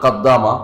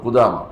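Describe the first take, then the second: First: The first vowel is 'a' with a doubled 'd'. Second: The first vowel is 'u' with a single 'd'. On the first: The speaker calls it wrong. "ভুল করে, বলে কাদ্দামা, পড়তে পারে না" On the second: The speaker calls it right. "কিন্তু উনি হচ্ছে ইবনু কুদামা"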